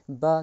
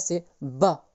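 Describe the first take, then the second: First: The b is said gently and normally. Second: The b is pressed hard and strengthened. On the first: "c'était gentil, bas, normal" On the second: "c'est quand il faut appuyer quand on prononce"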